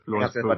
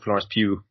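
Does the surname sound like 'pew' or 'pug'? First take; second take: pug; pew. First: The surname ends with a hard g sound. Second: The surname ends in an open vowel, no g. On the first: The speaker calls it wrong. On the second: The speaker calls it right.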